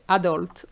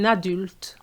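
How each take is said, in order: First: The vowel is an English-style vowel. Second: The vowel is a French 'u' sound. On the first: The speaker calls it wrong. "Most students say said adult" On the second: The speaker calls it right. "you have to pronounce the U sound"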